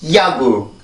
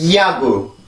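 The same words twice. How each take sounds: No difference in how they are said.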